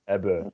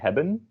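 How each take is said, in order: First: The final n is dropped entirely. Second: The final n is clearly pronounced. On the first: The speech is casual and informal. "Not posh. You would say heb, hebbe" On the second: The speech is careful and enunciated. "if I if I really enunciate, then I would say hebben with the n at the end"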